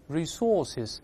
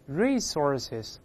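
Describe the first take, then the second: First: The stress is on the second syllable. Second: The stress is on the first syllable. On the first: "重音在后面" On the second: "重音在第一个音节，一般把它读成resources"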